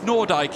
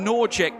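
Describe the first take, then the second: First: The name ends with a 'dyke' sound. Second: The name ends with an 'ick' sound. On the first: The speaker calls it right. "I'm going to go with the Virgil van Dijk Um, methodology" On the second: The speaker calls it wrong. "I know I've been saying Nordic"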